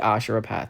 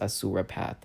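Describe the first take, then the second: First: The middle consonant of Asura is an sh sound. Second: The middle consonant of Asura is an s sound. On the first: This is how the speaker habitually says it. "I say Ashura Path" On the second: This is the accepted pronunciation. "I understand that it's pronounced Asura Path"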